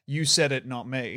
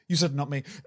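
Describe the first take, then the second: First: The phrase is said at a calm, relaxed pace. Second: The phrase is said in a fast, rushed burst. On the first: This is how he would like to say it. "he wants to say the sentence" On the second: He has almost no time before the music comes back in. "what ends up coming out is, ... he has to get it all out really fast"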